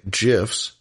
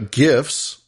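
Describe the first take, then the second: First: "gifs" with a soft G, like "jifs". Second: "gifs" with a hard G as in gift. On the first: Host mocking the wrong people's way, soft-G "gifs". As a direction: say "gifs" starting with a J sound. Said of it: "as the wrong people say". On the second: Host naming the images his preferred way, hard-G "gifs". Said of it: "or as the wrong people say". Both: Shown as a demonstration.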